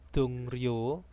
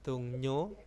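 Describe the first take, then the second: First: The middle consonant is pronounced as r. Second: The middle consonant is pronounced as n. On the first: The speaker calls it wrong. "Bukan Dongryo" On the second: The speaker calls it right. "Real itu akan berubah menjadi N"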